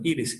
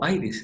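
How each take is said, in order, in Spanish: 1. El nombre se pronuncia al estilo español. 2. El nombre se pronuncia al estilo inglés. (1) "Como en español" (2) "Si uno quiere pronunciarlo"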